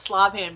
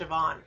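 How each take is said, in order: First: The name is said as Slobhand. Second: The name is said as Siobhan. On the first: The speaker calls it wrong. "call it Slobhand because it looks like that with the font" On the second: The speaker calls it right. "which is actually pronounced Siobhan"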